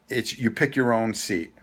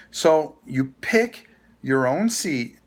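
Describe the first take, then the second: First: Said in the usual way. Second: "pick" stressed, whole line slowed right down; slow emphatic repeat. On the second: Shown as a demonstration. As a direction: spell out "So you pick your own seat" slowly, leaning on "pick".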